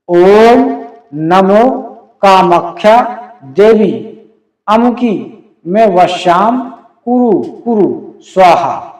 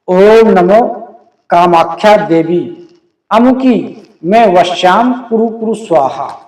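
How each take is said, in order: First: It is said slowly. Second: It is said at a normal pace.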